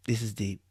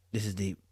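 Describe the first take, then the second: No difference in how they are said.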